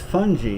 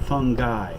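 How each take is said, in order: First: It does not sound like 'fun guy'. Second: It sounds like the phrase 'fun guy'. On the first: The microorganism is meant. The speaker calls it right. "that's fungi" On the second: A person who is fun is meant. The speaker calls it wrong. "not fungi. Fungi is somebody you invite to a party"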